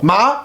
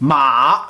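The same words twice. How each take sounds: First: It is said with the second tone. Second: It is said with the third tone. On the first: It means numb. "deuxième ton signifie engourdi" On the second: It means horse.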